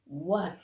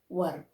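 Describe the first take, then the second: First: The vowel sounds like 'er', as in fur. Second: The vowel sounds like 'er', as in fur.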